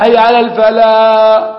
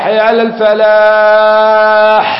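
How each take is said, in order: First: حي على الفلاح chanted slowly with الفلاح changed to mean desert; wrong falah. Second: حي على الفلاح chanted slowly, a little high, الفلاح with a clear ح; correct falah. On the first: Teacher showing a mistaken call for contrast, slow chant. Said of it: "الصحراء". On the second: Teacher demonstrating the correct call to students, slow chant. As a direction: stretch الفلاح, ending on a clear ح. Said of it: "أقبلوا إلى الفلاح". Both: Shown as a demonstration.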